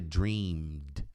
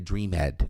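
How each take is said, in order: First: The -ed ending adds no extra syllable. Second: The -ed ending is said as an extra syllable. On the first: The speaker calls it right. "Aqui o sonhado é dreamed" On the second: The speaker calls it wrong. "não é dreamed. Não, esse E não é pronunciado"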